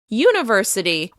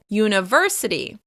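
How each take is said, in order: First: The stress is on the first syllable. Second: The stress is on the third syllable. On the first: The speaker calls it wrong. "If you shift the stress to the beginning of the word" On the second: The speaker calls it right. "the stress will be on the third syllable"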